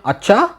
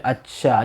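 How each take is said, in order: First: It sounds surprised. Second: It sounds happy.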